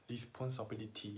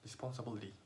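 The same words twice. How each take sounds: First: It is said with a Korean-style accent. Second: It is said with a native English accent. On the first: The speaker calls it wrong. "식 발음으로 하면" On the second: The speaker calls it right. "진짜 네이티브처럼 그냥 막 씹으면서 해버리면"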